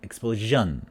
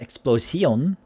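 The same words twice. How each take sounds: First: The middle consonant is a voiced zh sound. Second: The middle consonant is a voiceless sh sound. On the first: The speaker calls it right. "but explosion" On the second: The speaker calls it wrong. "not explosion"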